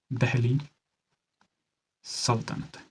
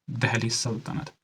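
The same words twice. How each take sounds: First: Quiet, spaced out for note-taking; slow dictation. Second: Said in the usual way. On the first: Shown as a demonstration. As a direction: softly, split by a long pause. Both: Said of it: "धीरे से बोल रहा हूँ".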